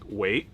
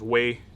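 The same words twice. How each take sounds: First: The pitch rises through the word. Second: The pitch stays level through the word. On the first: It means to surround. "kind of a tone going up" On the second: It means powerful and strong. "a flat Wei sort of sound"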